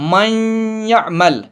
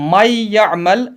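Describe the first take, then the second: First: The nasal n sound stays into the y. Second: The nasal n sound is dropped completely. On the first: The speaker calls it right. "नून की आवाज है वो साथ रहेगी" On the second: The speaker calls it wrong. "इसको माई यामल नहीं पढ़ेंगे"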